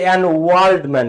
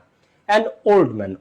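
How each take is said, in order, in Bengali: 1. 'old' শব্দটি w ধ্বনি দিয়ে শুরু হয়। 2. 'old' শব্দটি সাধারণ o স্বরধ্বনি দিয়ে শুরু হয়। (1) "আমরা কি বলি যে" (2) "ওয়ার্ল্ড না"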